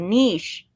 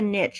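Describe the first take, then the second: First: The vowel is long, rhyming with quiche. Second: The vowel is short, rhyming with pitch. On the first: The speaker calls it right. "it's like quiche" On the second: The speaker calls it wrong. "what is it about you Americans that think make you think it's a niche?"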